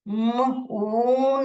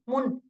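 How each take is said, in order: First: The vowel is drawn out long. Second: The vowel is clipped short. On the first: The speaker calls it right. "ये बड़ा है मून" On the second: The speaker calls it wrong. "मुन नहीं बोलते हो आप"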